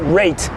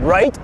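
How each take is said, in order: First: The word is said in a Scottish-influenced way. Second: The word is said in a standard way. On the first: "I might say rate. Because I was uh, friends with like this Scottish dude" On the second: "instead of like saying right"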